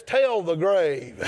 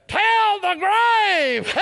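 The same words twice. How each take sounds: First: Said in the usual way. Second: Very high, long-held shout; triumphant cry. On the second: Real, not acted. Preacher calling out the victory song, triumphant cry. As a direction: cry it out high, stretching every word.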